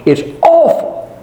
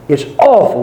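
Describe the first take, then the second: First: Awful lifted high with a rising tune; rising exclaimed awful. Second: Said in the usual way. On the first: Real, not acted. Preacher to congregation, a high rising cry of awful. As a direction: cry out awful in disbelief, pitched up.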